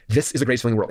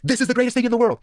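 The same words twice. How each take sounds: First: Said in the usual way. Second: Much higher, bursting with enthusiasm; excited quote. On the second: Retold or imitated. A convert blurting out his new passion, much higher and excited. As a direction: sell it like a sudden revelation.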